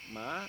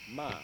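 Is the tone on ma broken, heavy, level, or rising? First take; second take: rising; level. First: The tone rises high and sharply. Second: The tone is flat and level.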